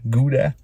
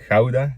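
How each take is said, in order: First: It is pronounced the American way. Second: It is pronounced the Dutch way.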